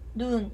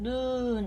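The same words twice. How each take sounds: First: The vowel is kept short. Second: The vowel is held long. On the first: It means eye. "눈 이렇게 짧게 발음을 합니다" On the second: It means snow. "눈 이렇게 장음으로 발음을 하고"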